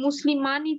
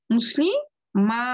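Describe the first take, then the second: First: মুসলিমানি with "-aani" fully sounded; original noon ending. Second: মুসলিমা slowly, with a held "maa"; long alif kept. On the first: Teacher cites the original form, noon pronounced. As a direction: say মুসলিমানি keeping the n before final i. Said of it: "তারপরে মুসলিমানি ছিল". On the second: Teacher shows the alif stays, long open a. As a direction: stretch মুসলিমা in two parts, no n. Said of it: "আলিফটা কিন্তু থাকবে". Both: Shown as a demonstration.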